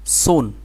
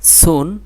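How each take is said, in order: First: সুন, full and heavy at the start; thick s. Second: সুন, light at the start; thin s. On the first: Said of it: "এটা thick". (সুন মোটা করে) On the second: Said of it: "এটা thin". (সুন চিকন করে) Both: Shown as a demonstration.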